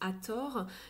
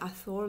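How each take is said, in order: First: The 'th' is said the French way, as 't'. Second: The 'th' is said the English way.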